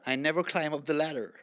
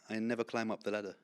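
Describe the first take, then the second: First: It is said in an American accent. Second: It is said in a British accent.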